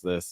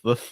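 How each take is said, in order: First: The word is said clearly, without a lisp. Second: The word is said with a lisp. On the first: "just like going from a higher pitch to a lower pitch" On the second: "since when did you have a lisp?"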